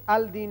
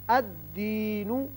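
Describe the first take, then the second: First: The l is clearly sounded before d. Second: The l merges into a doubled d. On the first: The speaker calls it wrong. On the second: The speaker calls it right.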